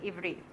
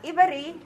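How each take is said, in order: First: "Ivri" in two tight syllables; correct "Ivri". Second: "Ivari" with an added a, i-va-ri; wrong "Ivari". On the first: Teacher settling the right form: "Ivri" in two syllables. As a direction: say "Ivri" crisply, no vowel between v and r. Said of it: "but Ivri". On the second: Teacher contrasting the error: "Ivari" with an extra vowel. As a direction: stretch "Ivari" into three syllables as a mistake. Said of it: "Not Ivari". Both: Shown as a demonstration.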